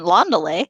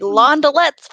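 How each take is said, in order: First: The word ends without a T sound. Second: The word ends with a T sound. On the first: The speaker calls it right. "you don't pronounce the T in Londele" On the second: The speaker calls it wrong. "I've been calling them Londelettes for twenty-two years"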